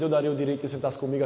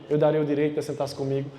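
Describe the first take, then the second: First: The phrase is spoken at a normal pace. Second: The phrase is spoken slowly and deliberately.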